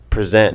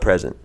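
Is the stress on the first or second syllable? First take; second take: second; first. First: The stress falls on the second syllable. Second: The stress falls on the first syllable. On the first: The speaker calls it right. "Prznt, not present. Like I'm presenting this" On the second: The speaker calls it wrong. "not present"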